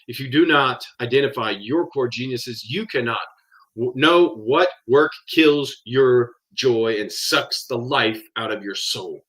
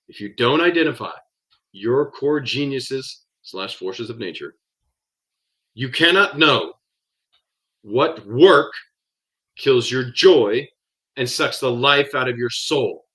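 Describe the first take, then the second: First: It is said at a normal pace. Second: It is said more slowly.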